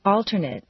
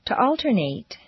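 First: "Alternate" ending in a reduced "nit"; "Alternate" said AL-ter-nit; adjective pronunciation. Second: "alternate" ending in a full "nate"; "alternate" said AL-ter-nate; verb pronunciation. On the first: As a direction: weaken the last syllable of "Alternate". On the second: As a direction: give the last syllable of "alternate" a long A. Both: Shown as a demonstration. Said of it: "regular transitions of adjectives and verbs".

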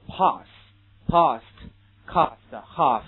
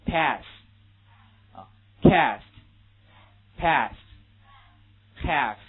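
First: British "Pass", "past", "cast", "half" with a broad open ah vowel; teacher modelling the British vowel; British pronunciation. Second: American "Pass", "cast", "half" with a flat short a like "pess"; teacher modelling the American vowel; American pronunciation. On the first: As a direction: spell out the British ah in each word. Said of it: "非常典型的英国人的读法". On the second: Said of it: "美国人会怎么来读". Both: Shown as a demonstration.

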